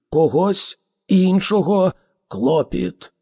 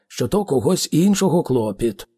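First: "Когось іншого клопіт" slow and higher, word by word; emphatic definition. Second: Said in the usual way. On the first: A narrator's reading. Ford spells out "Когось іншого клопіт" to Arthur, slow and emphatic. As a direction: set "Когось", "іншого", "клопіт" apart, each stressed.

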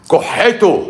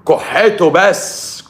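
First: Said in the usual way. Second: كحته drawn out slowly with a rising end; stress on كحته. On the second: Shown as a demonstration. Man stressing his point to the audience, slow rising كحته. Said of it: "كحته بس في البيت".

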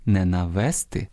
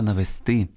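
First: "навести" with the stress on "ве"; stress misplaced on the middle syllable. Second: "навести" with the stress on the last syllable "сти"; correct final stress. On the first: Teacher warning listeners off a mistake, "навести" stressed on "ве". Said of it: "не навести, а навести". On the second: Teacher correcting listeners' stress, "навести" stressed on "сти". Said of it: "Учимося правильно наголошувати слова". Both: Shown as a demonstration.

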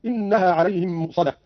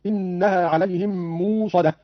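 First: Said in the usual way. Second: "موصدة" as "moosadah", long oo; no glottal catch in "موصدة", glide on a long u; hamza becomes waw. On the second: Shown as a demonstration. ("موصدة" بإبدال الهمزة واوا) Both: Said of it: "قرأ قالون بإبدال الهمزة واوا".

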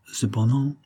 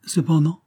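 First: Tentative word left hanging on a rise; hesitant. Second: Higher-pitched, inviting echo; encouraging. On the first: Count fears being indiscreet to hostess, hesitant. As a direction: break off politely, unsure whether to go on. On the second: Hostess prompts the hesitant count to continue, encouraging. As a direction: prompt him gently to go on, pitch lifted. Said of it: "fit-elle d'un ton encourageant". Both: A narrator's reading.

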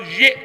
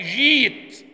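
First: "جئت" with a glottal stop after short ji; hamza sounded. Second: "جيت" with a long ee and no glottal stop; hamza turned to ya. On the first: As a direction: cut the vowel of "جئت" with a still hamza. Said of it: "والهمزة ساكنة". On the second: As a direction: stretch "جيت" as jeet, hamza dropped. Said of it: "هنقول إيه؟". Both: Shown as a demonstration.

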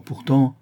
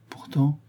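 First: Reluctant lead-in on "Pourtant"; "Pourtant" voiced firmly, then left hanging; hesitant. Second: "pourtant" repeated higher as an anxious prompt; softer, high questioning "pourtant"; questioning echo. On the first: Lupin holding back bad news, hesitant. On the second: Woman prompting Lupin to go on, questioning. Listener echoes the word, prompting. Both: A narrator's reading.

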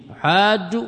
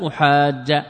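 First: أحاج ending in "u", as "uhaajju"; doubled jim closed with damma in أحاج; أحاج with long "aa" and final "-ju"; nominative damma ending. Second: أحاج ending in "a", as "uhaajja"; doubled jim opened with fatha in أحاج; أحاج with long "aa" and final "-ja". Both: Shown as a demonstration. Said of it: "يجوز فيه الوجهان".

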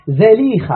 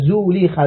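First: زليخة said "Zalikha", with an "a" after the z; fatha on the zay. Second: زليخة said "Zulikha", with a "u" after the z; rounded first vowel in زليخة, zu-LEE-kha; damma on the zay. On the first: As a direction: open first vowel in زليخة, za-LEE-kha. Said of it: "هكذا بفتح الزاي". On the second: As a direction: say زليخة as "Zuleekha". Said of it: "بضم الزاي". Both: Shown as a demonstration.

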